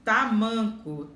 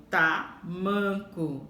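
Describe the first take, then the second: First: Said in the usual way. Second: "tamanco" very slowly split, ta... MAN-co; slow sounding-out of "tamanco", stressing "man"; syllable stress. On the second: Shown as a demonstration. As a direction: pause after "ta", then lean on "man" in "tamanco". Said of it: "man é a sílaba mais forte".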